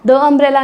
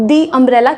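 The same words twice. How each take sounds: First: "the" said as short "thuh" before "umbrella"; the wrong way: "thuh umbrella"; wrong pronunciation. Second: "the" said as "thee", long ee, before "umbrella"; the correct way: "thee umbrella"; right pronunciation. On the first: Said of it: "the umbrella नहीं". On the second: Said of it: "क्योंकि vowel sound आई". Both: Shown as a demonstration.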